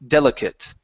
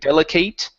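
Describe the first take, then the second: First: The last syllable sounds like 'it'. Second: The last syllable sounds like 'ate'. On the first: The speaker calls it right. "the ate turns into an it sound" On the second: The speaker calls it wrong. "instead of saying delicate"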